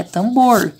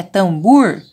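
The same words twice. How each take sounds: First: TAMBOR with a long closed O in BOR; O in last syllable. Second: TAMBOR questioned as "tamBUUR", long oo. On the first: Teacher correcting the child, TAMBOR with a clear long O. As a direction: stretch BOR on an oh sound, not oo. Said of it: "vamos colocar o O". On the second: Teacher querying the wrong vowel, TAMBOR as "tambur". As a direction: ask it with a stretched U in TAMBOR. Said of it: "se eu colocar o U aqui". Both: Shown as a demonstration.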